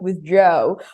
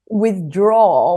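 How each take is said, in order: First: The last vowel is a softer 'oh' sound. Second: The last vowel is an open 'aw' sound. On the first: "I would say more like withdraw or make it a little bit that oh softer" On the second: "withdraw with this law"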